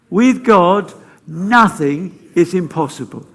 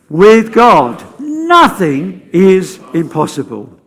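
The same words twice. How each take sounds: First: It is said with moderate energy. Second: It is said with more gusto.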